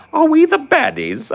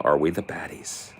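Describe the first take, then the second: First: Very high, loud "Are we the baddies?" with "the" stressed; high shout. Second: Said in the usual way. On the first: Shown as a demonstration. Gamer repeating the sketch line in a very high, loud squeal. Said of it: "that British humor". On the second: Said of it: "Paul, have you noticed".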